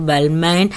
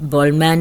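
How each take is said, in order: First: The first syllable sounds like 'bal'. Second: The first syllable sounds like 'bol'. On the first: This is how the speaker herself says it. "എനിക്കത് ബൾമാൻ" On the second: This is how some other people say it. "ചിലർ ബോൾ ബോൾമാൻ എന്ന് പറയും"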